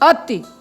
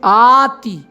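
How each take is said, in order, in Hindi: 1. पहला स्वर छोटा है। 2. पहला स्वर लंबा है। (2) "लेकिन आति नहीं है यहाँ पर"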